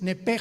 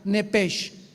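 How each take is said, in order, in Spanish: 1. La palabra termina en sonido 'h' gutural. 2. La palabra termina en sonido 'sh'. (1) "Nepesh se pronuncia en el hebreo como J" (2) "como suena nepesh"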